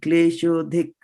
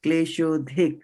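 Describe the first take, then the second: No difference in how they are said.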